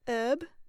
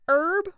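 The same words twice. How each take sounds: First: It is said in a British accent. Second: It is said in a Southern American twang. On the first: "I'm going to do British" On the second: "I'm going to do a southern twang"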